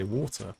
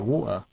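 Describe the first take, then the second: First: The T in the middle is clearly pronounced. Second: The T in the middle is dropped. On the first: "You cross the T. You say the T in the in the word" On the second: "if you don't cross the T"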